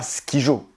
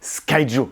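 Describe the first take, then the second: First: The first syllable sounds like French 'ski'. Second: The first syllable sounds like English 'sky'. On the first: It is a traditional, very French family game. "on ne dit pas Skijo" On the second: It is the name as everyone officially says it. "ça se dit Skyjo"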